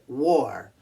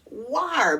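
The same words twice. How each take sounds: First: The vowel sounds like 'or' in 'for'. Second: The vowel sounds like 'ar' in 'car'. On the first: The speaker calls it right. "We pronounce W A R like it's an O R" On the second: The speaker calls it wrong. "Looks like it should be pronounced war because the A R makes the R sound. But not in this case"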